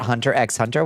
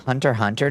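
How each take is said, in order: First: The middle X is pronounced aloud. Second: The middle X is left silent. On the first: The speaker calls it wrong. "I've always said Hunter x Hunter" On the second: The speaker calls it right. "The silent the X is silent?"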